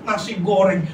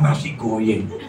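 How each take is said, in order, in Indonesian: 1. Kata itu diucapkan dengan bunyi R yang jelas. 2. Bunyi R diganti dengan bunyi seperti Y.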